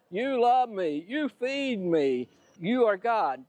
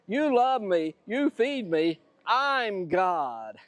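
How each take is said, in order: First: Higher, drawn-out voice of an adoring dog; devoted dog. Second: Higher start, settling into a self-satisfied claim; lightly voiced conceited cat, stressing I'M; self-important cat. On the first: Acted. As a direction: praise the master as a grateful dog would. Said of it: "The dog says". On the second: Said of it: "But the kitty cat says".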